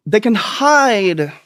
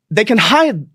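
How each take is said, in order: First: They can hide, said slow and stretched; drawn out slowly. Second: Said in the usual way. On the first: Shown as a demonstration.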